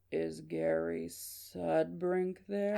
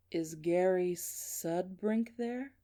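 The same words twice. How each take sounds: First: Very slow, creepy growl on the phone; slow growly caller. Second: Slow, drawn-out question in a measured voice; deliberate mystery caller. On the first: Shown as a demonstration. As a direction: drag every word out in a robotic growl. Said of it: "here's the voice. If I was to impersonate". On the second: Acted. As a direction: stretch the words like an eerie caller.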